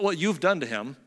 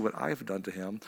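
First: YOU'VE emphasized to shift the blame; stress on YOU'VE. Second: Lower, softer aside leaning on I'VE; stress on I'VE. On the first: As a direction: hand the blame back, weight on YOU'VE. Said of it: "but what you've done to him". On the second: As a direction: own up in an undertone, weight on I'VE. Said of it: "actually what I've done to him". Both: Acted.

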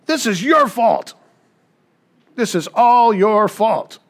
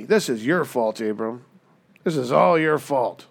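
First: Higher, louder, slow furious accusation; angry blame. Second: Said in the usual way. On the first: Acted. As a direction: jab each word at him, blaming. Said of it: "She turns to Abram and says". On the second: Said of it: "She says".

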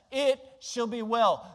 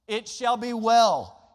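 First: Said in the usual way. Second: "It shall be well" slow and louder, each word weighted; slow emphatic. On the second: Shown as a demonstration. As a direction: preach "It shall be well" slowly with full conviction. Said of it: "Folks, that's called faith".

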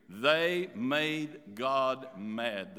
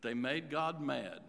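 First: "They made God mad" drawn out very slowly, each word weighted; strong emphasis. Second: Said in the usual way. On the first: Real, not acted. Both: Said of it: "in a strong emphasis here".

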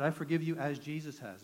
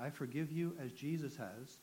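First: Louder, resolute vow to himself; firm self-forgiveness spoken in the mirror; firm declaration. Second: Said in the usual way. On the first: Retold or imitated. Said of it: "No, I, no, I said". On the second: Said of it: "I remember saying that".

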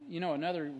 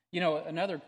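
The two takes are said the same way.

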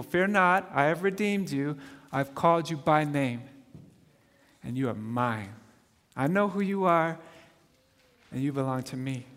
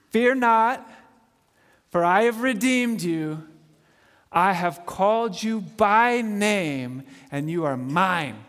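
First: Tender re-reading. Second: Scripture reading. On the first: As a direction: whisper the promise to each listener. Rereads the verse softly. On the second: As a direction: proclaim God's words with weight. Reads scripture aloud. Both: Real, not acted.

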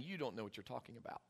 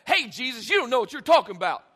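First: Very soft, low and quick; hushed, kindly contradiction; loving correction. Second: Loud, rapid scolding; mock confrontational outburst; harsh rebuke. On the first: Acted. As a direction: murmur it gently alongside a friend. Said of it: "He's lovingly coming alongside his Lord". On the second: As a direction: fire it off as a blunt challenge. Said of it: "it's not like a".

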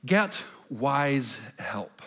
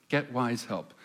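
First: "Get wise help" spelled out very slowly, each word weighted; emphatic slow statement. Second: Said in the usual way. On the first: Shown as a demonstration. Pastor announcing his fourth point very slowly and emphatically.

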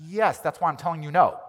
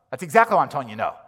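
First: "Yes" hit hard and higher, the rest falling; firm "Yes" leading the line; stress on yes. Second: "exactly" punched loud, whole line quick; rapid, louder line hammering "exactly"; stress on exactly. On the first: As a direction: lean on "Yes" to settle it. Answering the demand twice. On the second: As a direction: drive "exactly" home fast. Repeated answer, new stress. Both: Acted.

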